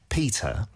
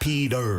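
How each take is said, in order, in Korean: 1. 영국식 억양으로 말함, t 발음함. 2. 미국식 억양으로 말함, t 플랩함. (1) "영국식으로" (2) "미국식으로 하면"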